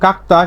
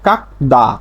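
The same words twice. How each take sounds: First: "kak-ta" for কাকতা, t not d; corrected t reading. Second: "kak-da" for কাকদা, keeping the d; ordinary d reading. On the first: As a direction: say কাকতা with a voiceless t in the second syllable. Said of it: "এর সঠিক উচ্চারণ". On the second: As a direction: say কাকদা with a voiced d in the second syllable. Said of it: "স্বাভাবিকভাবে উচ্চারণ হয়". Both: Shown as a demonstration.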